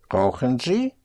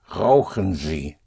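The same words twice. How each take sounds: First: It is said with question intonation. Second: It is said with command intonation. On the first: It asks whether the listener smokes. "do you smoke?" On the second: It tells the listener to smoke. "if you want to use the imperative and say, smoke"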